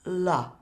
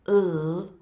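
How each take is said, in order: First: The l is followed by an added uh vowel. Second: The l is said alone, with no vowel after. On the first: The speaker calls it wrong. "not la" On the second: The speaker calls it right. "not to add an uh at the end of the consonant sound"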